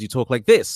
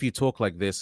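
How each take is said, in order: First: The voice varies widely in pitch and energy. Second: The voice stays flat with no pitch change. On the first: The speaker calls it right. "it's way more expressive" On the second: The speaker calls it wrong. "there's never any change in variation in your voice, it sounds very robotic"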